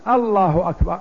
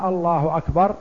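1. الحركة الأولى تُمدّ مدًّا طويلًا. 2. الحركة الأولى تُمدّ مدًّا طويلًا.

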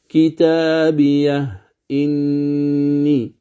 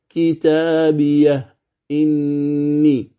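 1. تُنطق الهمزة كاملة بعد هاء السكت. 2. تُنطق الهمزة كاملة بعد هاء السكت.

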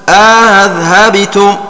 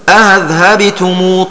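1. الهمزة الثانية مسهلة، مع إدخال ألف بينهما. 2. الهمزة الثانية مسهلة، دون إدخال ألف بينهما. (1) "التسهيل ... مع الإدخال" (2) "يسهل الثانية من غير إدخال"

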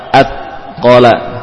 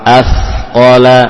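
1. Bunyi konsonan itu berhenti mendadak. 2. Bunyi konsonan itu dipanjangkan terus-menerus. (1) "Contoh yang keliru misalkan at, ya, terputus" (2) "suaranya diperlama"

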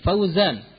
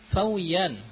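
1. Huruf tengahnya bunyi z. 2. Huruf tengahnya bunyi y. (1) "Fauzan misalkan" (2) "Pakai ya"

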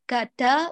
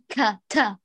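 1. الكاف تُنطق بدون نفس تقريبا. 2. الكاف تُنطق بتدفق قوي من النفس. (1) "بالمبالغة في إخفاء همسها" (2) "بتدفق كثير من النفس"

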